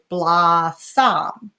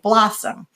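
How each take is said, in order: First: The second vowel is full, not reduced. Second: The second vowel is reduced.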